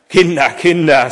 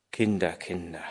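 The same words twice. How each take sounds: First: Loud, higher exclamation of dismay; head-shaking dismay. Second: Very soft, low murmur to himself; hushed, low and musing. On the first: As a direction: tut over them in a raised voice. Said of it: "sagte Vater Martin kopfschüttelnd". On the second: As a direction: murmur it in quiet wonder. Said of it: "murmelte Vater Martin leise". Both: A narrator's reading.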